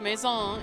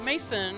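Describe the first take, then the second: First: It sounds like the French word maison. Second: It sounds like the English name Mason. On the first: The speaker calls it right. "it is pronounced Maison" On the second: The speaker calls it wrong. "It is not Mason"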